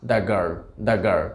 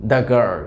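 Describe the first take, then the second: First: Put-on "the girl, the girl" drawn out very slowly as "da girl"; slow da demo. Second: Put-on "the girl" with "the" as a short "da". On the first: Teacher slowly repeats da girl for students. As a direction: stretch every sound of "da girl" for learners. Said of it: "উচ্চারণটা হয়ে যাচ্ছে দা". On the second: Teacher shows students da before girl. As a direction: clear classroom model, "da girl". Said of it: "আরও কয়েকটা example". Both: Shown as a demonstration.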